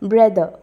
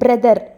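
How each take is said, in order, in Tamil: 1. r ஒலிகள் லேசாக, கிட்டத்தட்ட ஒலிக்காமல் உள்ளன. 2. r ஒலிகள் வலுவாக அழுத்தப்பட்டு முழுமையாக ஒலிக்கப்படுகின்றன.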